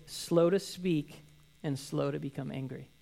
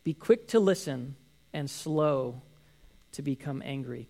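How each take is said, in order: First: Drawn-out, deliberate scripture read; slow reading. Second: Drawn-out scripture quote; slow reading. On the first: Pastor reading James' verse slowly to the congregation. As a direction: lean on every word slowly. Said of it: "immediately he follows with". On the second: Pastor quoting James slowly to the congregation. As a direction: give each word weight, slowly. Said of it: "and he says". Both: Shown as a demonstration.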